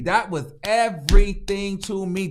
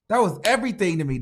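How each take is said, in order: First: EVERYTHING broken into separate punched syllables; emphatic repeat. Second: Said in the usual way. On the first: Real, not acted.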